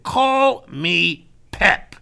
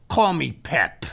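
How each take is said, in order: First: "Call me Pep" slow, each word set apart; "Call me Pep" stretched out and firmly stressed; insistent repeat. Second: Said in the usual way. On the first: Retold or imitated. Repeats it after no answer.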